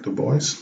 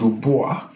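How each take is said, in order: First: The name is said in a non-French way. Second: The name is said the French way. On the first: This is how the man himself said his name. The speaker calls it right. "he pronounces it Du Bois" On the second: This is how the name would be said in French. The speaker calls it wrong. "would have been the French pronunciation"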